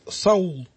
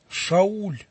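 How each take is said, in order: First: The name begins with an s sound. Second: The name begins with an sh sound. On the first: This is the form used in Russian transliteration. The speaker calls it wrong. "В нашей транслитерации Саул" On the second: This is the original form of the name. The speaker calls it right. "А в действительности это имя было не Саул даже, Шауль"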